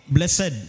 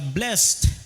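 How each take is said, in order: First: It is said as two syllables. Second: It is said as one syllable. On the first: It is the adjective. "Kung i-combine to sila, mao ni blessed" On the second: It is the past tense verb. "Usa lang ka syllable nga pro- uh, pronunciation nga blessed"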